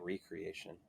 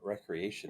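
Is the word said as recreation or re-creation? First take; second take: re-creation; recreation. First: It is said as re-creation, creating anew. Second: It is said as the everyday word recreation. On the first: Being made new again. The speaker calls it right. "I like to say recreation" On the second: Leisure or amusement. The speaker calls it wrong. "I don't like to pronounce it that way"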